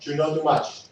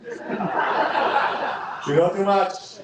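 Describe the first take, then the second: First: Put-on a light Spanish accent, quoting a father; a hint of a Spanish-accented dad; light Spanish-accented warning; dad's Spanish accent. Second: Put-on slow, drawn-out Spanish accent through laughter; very slow laughing Spanish accent; dad's Spanish accent. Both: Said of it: "As my dad would say with a Spanish accent".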